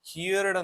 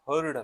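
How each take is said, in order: First: The vowel sounds like 'here' before the final d. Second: The vowel sounds like 'her' before the final d. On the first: The speaker calls it wrong. "ಕೆಲವರು ಇದನ್ನ ಹಿಯರ್ಡ್ ಅಂತ pronounce ಮಾಡ್ತಾರೆ, ಇದು ತಪ್ಪು" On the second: The speaker calls it right. "ಯಾವಾಗ್ಲೂ ನೀವು ಹರ್ಡ್ ಅಂತ pronounce ಮಾಡ್ಬೇಕು"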